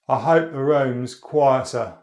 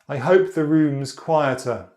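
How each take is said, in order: First: It is spoken in an Estuary accent. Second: It is spoken in a Standard Southern accent. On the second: "Standard Southern"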